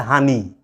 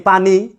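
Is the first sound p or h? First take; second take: h; p. First: It starts with an h sound, Noakhali style. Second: It starts with a p sound, as written.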